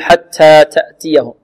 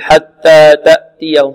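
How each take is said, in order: First: The t sounds hiss strongly, almost like s. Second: The t sounds have no breathy release. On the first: "أو نبالغ في الهمس" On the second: "بعض الطلاب يقول حتى تأتيهم خطأ"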